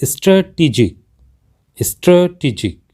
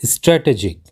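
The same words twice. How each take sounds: First: स्ट्रेटेजिक as "struh-tee-jik"; correct pronunciation. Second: स्ट्रेटेजिक with "ay" vowels, stray-tay-jik; common mispronunciation. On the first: Teacher modelling the word, correct pronunciation with "tee". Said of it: "इस शब्द का सही उच्चारण होता है". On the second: Teacher showing a common mistake, mispronounced with "ay" vowels. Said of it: "हम अक्सर गलत करते हुए". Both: Shown as a demonstration.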